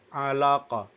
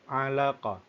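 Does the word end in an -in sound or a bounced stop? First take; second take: bounced stop; bounced stop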